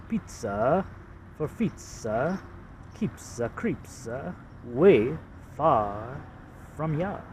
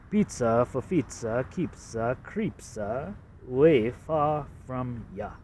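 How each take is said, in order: First: Slow Boston accent, far dragged out as fah. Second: Boston accent. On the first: Showing ad slogan to viewers in a Boston accent. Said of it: "It's a Boston accent". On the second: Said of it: "This is supposed to be a Boston accent". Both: Shown as a demonstration.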